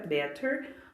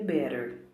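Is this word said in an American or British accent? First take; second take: British; American. First: It is said in a British accent. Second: It is said in an American accent. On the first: "a fonética britânica" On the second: "ou a americana"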